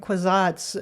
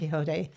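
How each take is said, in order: First: It is pronounced the way the spelling looks. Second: It is pronounced the usual spoken way. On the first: The speaker calls it wrong. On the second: The speaker calls it right.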